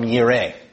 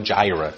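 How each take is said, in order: First: The word begins with a Y sound. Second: The word begins with a J sound. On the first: The speaker calls it right. "It's coming from Yireh" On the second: The speaker calls it wrong. "There's no J, and so there's no Jireh"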